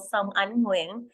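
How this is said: The name is said with Vietnamese-style sounds.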